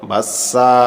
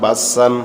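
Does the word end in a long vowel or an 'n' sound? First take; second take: long vowel; n sound. First: The word ends on a long 'a' vowel. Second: The word ends with an 'n' sound. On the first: The reader stops after this word. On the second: The reader continues without stopping.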